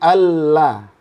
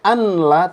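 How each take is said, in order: First: The n merges fully into a doubled l. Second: The n is pronounced before the l. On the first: The speaker calls it right. "tapi alla" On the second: The speaker calls it wrong. "nggak boleh anla"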